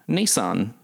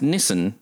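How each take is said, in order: First: The name is said the American way. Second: The name is said the Australian way. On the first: The speaker calls it right. "So Americans have been saying it right" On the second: The speaker calls it wrong. "Which in Australia we pronounce Nissan"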